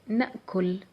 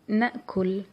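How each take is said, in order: First: The word ends on the final consonant. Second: The same.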